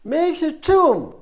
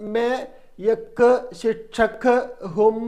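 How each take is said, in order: First: The words run together smoothly without breaks. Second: Each word is said separately and jerkily. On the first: The speaker calls it right. "എന്ത് പറയണം?" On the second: The speaker calls it wrong. "ഈ പാറപ്പുറത്തോടെ കാളവണ്ടി പോകുന്ന"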